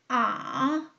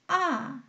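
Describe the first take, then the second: First: The pitch dips low, then rises again. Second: The pitch drops sharply from high to low. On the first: "비교적 낮은 음에서 밑바닥을 치고 중간음까지 올라가는 거예요" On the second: "위에서 내리 꽂듯이"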